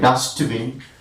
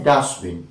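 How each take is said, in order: First: The t sound is pronounced. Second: The t sound is dropped. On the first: The speaker calls it wrong. "but we don't say dustbin" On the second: The speaker calls it right. "But we say dustbin"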